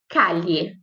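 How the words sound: The ll sounds like a palatal ly sound. This is heard in only a few places. "em alguns poucos lugares tem o som de L H"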